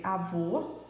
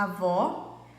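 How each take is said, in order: First: Avô with a closed ô, like "oh"; closed ô in avô, contrasted with avó; closed vowel avô. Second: Avó with an open ó, like "aw"; open vowel avó. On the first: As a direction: say avô with a tight rounded final vowel. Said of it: "em que lista as vogais têm acento circunflexo". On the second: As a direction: say avó with the mouth wide open on the last vowel. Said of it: "em que lista as vogais têm acento agudo". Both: Shown as a demonstration.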